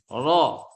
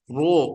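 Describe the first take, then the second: First: The vowel is open, like an a sound. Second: The vowel is rounded, like an o sound. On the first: The speaker calls it right. "Selama berbaris fathah, buka itu" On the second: The speaker calls it wrong. "Salah itu kalau Anda bilang ro"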